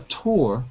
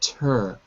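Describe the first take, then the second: First: The syllable has a full 'oo' vowel. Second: The syllable has a reduced 'er' vowel. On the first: The speaker calls it wrong. "Not a tour" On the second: The speaker calls it right. "but a tur"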